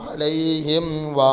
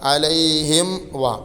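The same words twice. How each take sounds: Both takes have the same delivery.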